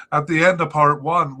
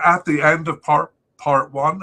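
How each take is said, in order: First: Said in the usual way. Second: Words broken by a hiccup. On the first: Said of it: "excuse me". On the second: Real, not acted. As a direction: talk through a sudden hiccup. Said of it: "I'm hiccuping there".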